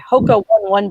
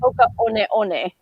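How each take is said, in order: First: Each 'One' sounds like the English word 'one'. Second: Each 'One' sounds unlike the English word 'one'. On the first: The speaker calls it wrong. "I was pronouncing it wrong" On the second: The speaker calls it right. "it's actually"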